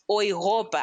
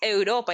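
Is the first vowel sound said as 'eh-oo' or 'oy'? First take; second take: oy; eh-oo. First: The first vowels are said as one 'oy' sound. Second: The first vowels are said as separate 'eh-oo'. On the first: The speaker calls it right. "es Europa" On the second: The speaker calls it wrong. "No es Europa"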